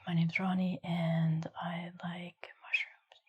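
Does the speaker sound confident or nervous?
nervous. The voice sounds nervous and shy. "You're getting nervous. You're a little shy"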